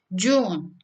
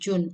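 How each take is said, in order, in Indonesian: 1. Vokalnya diucapkan panjang. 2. Vokalnya diucapkan pendek. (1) "tapi June gitu ya" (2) "bukan June"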